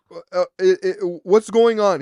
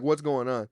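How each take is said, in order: First: Loud, stammering exasperation; hammed-up, stuttering loud question; mock impatient demand. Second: Said in the usual way. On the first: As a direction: imitate a flustered caller raising his voice. Exaggerated retold impatient caller.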